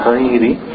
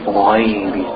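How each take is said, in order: First: The letter is said thin, mouth not opened. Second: The letter is said thick, with an O sound. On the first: The speaker calls it wrong. "not ghairi" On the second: The speaker calls it right. "so you make an O sound"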